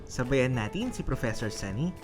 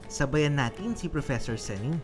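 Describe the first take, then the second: The two takes are said the same way.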